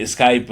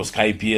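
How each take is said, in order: First: Said in the usual way. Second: Skype said as two syllables, "sky-pee"; alternative pronunciation. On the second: Shown as a demonstration. Guest giving another name people use, Skype pronounced "sky-pee". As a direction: say Skype with an added "ee" on the end. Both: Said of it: "some people call it".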